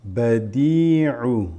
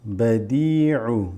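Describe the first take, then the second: No difference in how they are said.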